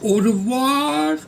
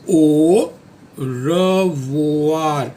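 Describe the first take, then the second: First: The two parts are run together smoothly. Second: The two parts are said separately.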